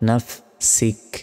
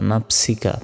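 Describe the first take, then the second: First: The word ends on a bare k sound. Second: The word ends with a ka vowel. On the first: The reading stops at this word. "থামলে কাফের উপর সাকিন দিতে হবে" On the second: The reading continues past this word. "কাফ জবর কা"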